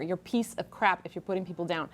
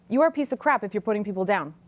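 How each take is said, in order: First: Low and soft repeat; quieter second take. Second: "You are a piece of crap" said firmly with "are" stressed; stressed first take. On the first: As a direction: say it again quietly, pitch down. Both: Shown as a demonstration. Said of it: "How's that for a truth bomb".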